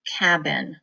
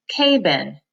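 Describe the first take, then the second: First: "cabin" said as cab-in, short A; right split. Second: "K-bin" said as K then bin; wrong split. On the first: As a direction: blend "cabin" properly. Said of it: "I know what a cabin is". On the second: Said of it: "never heard of the word K-bin". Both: Shown as a demonstration.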